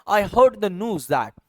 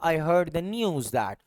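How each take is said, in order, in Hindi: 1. न्यूज़ सादे 'oo' की आवाज़ के साथ बोला जाता है। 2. न्यूज़ 'yoo' की आवाज़ के साथ बोला जाता है। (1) "न्यूज को जब अमेरिकन पढ़ेगा" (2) "ब्रिटिश इसको बोलेगा"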